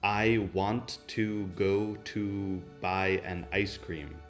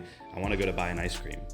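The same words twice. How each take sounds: First: Each word is pronounced fully and separately. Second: Words are reduced and run together. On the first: The speaker calls it wrong. "non direi mai" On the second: The speaker calls it right.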